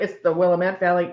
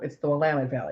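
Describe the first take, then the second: First: Willamette is said the outsider way. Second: Willamette is said the local way. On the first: The speaker calls it wrong. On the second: The speaker calls it right.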